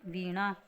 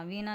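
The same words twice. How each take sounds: First: वीणा with a clear retroflex ण. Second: वीणा said with dental न, as veena; plain n in वीणा; wrong N sound. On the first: Teacher gives the correction, वीणा with retroflex ण. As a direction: curl the tongue back on ण in वीणा. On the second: Teacher shows the mistake, वीणा with dental n. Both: Shown as a demonstration. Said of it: "नहीं क्या होता है".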